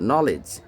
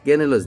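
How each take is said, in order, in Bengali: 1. শব্দটি সরাসরি N ধ্বনি দিয়ে শুরু হয়। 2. শব্দটি স্পষ্ট K ধ্বনি দিয়ে শুরু হয়।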